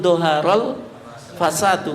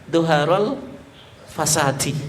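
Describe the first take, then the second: First: The last word ends in a u vowel. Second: The last word ends in an i vowel. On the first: The speaker calls it right. "yang betul doharul fasadu" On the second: The speaker calls it wrong. "kalau dia baca doharul fasadi"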